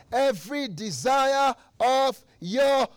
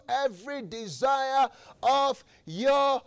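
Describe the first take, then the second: No difference in how they are said.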